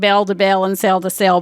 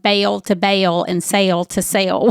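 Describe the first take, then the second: First: The vowels are short without a Southern accent. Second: The vowels are drawn out in a Southern accent. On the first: "not a Southern accent" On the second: "it took me a minute to figure out what bail to bail and sail to sail was"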